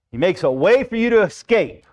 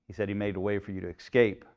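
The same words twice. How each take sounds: First: Higher and louder, eager misreading of the verse; mistaken reading. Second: Said in the usual way. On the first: Shown as a demonstration. Preacher mocking the wrong reading of the verse, eager and raised. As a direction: say it like the comforting version everyone wants. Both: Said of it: "That is not what that verse says".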